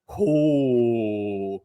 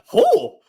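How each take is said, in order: First: It sounds reserved and restrained. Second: It sounds shocked and sudden.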